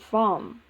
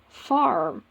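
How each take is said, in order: First: The r after the vowel is silent. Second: The r after the vowel is pronounced. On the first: "rather than farm" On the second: "American English, such as New York, the word farm is pronounced as farm"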